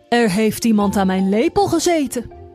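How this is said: The voice is very deep and heavy. The biggest character is speaking. "zei met een zware stem"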